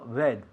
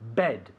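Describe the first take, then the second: First: The b is soft, without an explosive burst. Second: The b is released with an explosive burst. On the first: The speaker calls it wrong. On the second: The speaker calls it right. "es un sonido explosivo"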